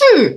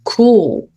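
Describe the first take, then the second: First: The word ends in a short, clipped L sound. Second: The word ends in a resonant, held dark L. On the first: The speaker calls it wrong. "쿨 이렇게 표현하셨죠" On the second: The speaker calls it right. "저 아이는 cool 하고 읽으셔야 합니다"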